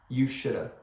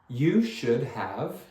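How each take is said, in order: First: The words blur quickly into one word. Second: Each word is said fully and separately.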